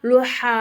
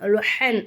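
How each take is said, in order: First: The word ends with a long a vowel. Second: The word ends with an n sound. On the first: "தோ ஜபர் தூக்கிட்டு ஜபர் வச்சு லுஹா, எப்படி லுஹா அப்படின்னு நம்ம நிப்பாட்டணும்" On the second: "லு ஹன் லுஹன் அப்படிங்கிறத ஹாக்கு மேல் உள்ள தோ ஜபர்"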